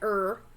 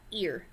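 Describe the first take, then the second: First: The vowel sounds like 'er'. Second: The vowel sounds like 'ear'. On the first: The speaker calls it wrong. "not like er or however else you might pronounce that" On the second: The speaker calls it right. "Ear, like your ear"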